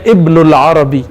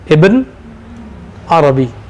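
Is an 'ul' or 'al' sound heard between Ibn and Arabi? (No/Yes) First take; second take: Yes; No. First: An 'ul' sound links Ibn to Arabi. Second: Ibn runs straight into Arabi without 'ul'. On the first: This is the form used in the Maghrib. "Dalam bahasa Maghrib, Ibn Arabi tidak boleh illa bil alif wal lam. Dibacanya" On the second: This is the form used in Damascus. "Maka dihapuslah alif dan lam. Gimana bacanya?"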